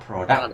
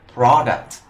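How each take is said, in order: First: It is said with a different stress pattern. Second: It is said with the noun's stress pattern. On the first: The speaker calls it wrong. "not product" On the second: The speaker calls it right. "When it's a noun, it's pronounced like product"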